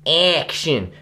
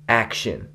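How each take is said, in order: First: "action" punched higher, first syllable stretched; exaggerated accent on ACTION. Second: Said in the usual way. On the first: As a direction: overdo the stress on "action". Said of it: "put such a big accent on". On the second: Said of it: "Justin always said".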